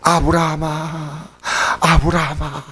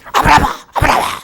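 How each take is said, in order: First: The name is called calmly and sedately. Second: The name is called urgently and with alarm.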